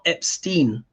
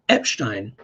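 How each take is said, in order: First: The middle is said with a plain 'st' sound. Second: The middle is said with an 'sht' sound. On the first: The speaker calls it wrong. "but it's not Epstein" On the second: The speaker calls it right. "So it's actually Epstein in terms of the German way"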